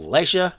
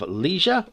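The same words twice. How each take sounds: First: It is said with a British pronunciation. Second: It is said with an American pronunciation.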